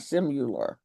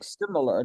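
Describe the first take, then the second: First: The second syllable has a 'you' vowel. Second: The second syllable has a short 'i' vowel. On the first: The speaker calls it wrong. "not simular" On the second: The speaker calls it right. "It's sim similar"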